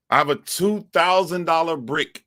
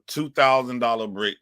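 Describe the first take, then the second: First: High, strained mock lament; high put-on voice. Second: Said in the usual way. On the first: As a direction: whine it up high about the useless phone.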